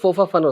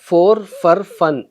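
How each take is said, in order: First: The words are said quickly with clipped sounds. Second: Each word is pronounced fully and distinctly.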